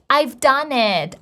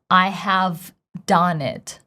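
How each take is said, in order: First: I have is shortened to one syllable. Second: I have is said as two full words. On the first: "they use contractions" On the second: "pronouncing the full form"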